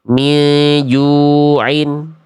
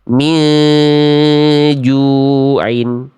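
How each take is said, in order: First: The nasal sound is rushed and cut short. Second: The nasal sound is held for two beats. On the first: The speaker calls it wrong. "Karena tergesa-gesa, ya nggak ditahan dulu dua harokat, ya buru-buru" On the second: The speaker calls it right. "ya tahan dulu"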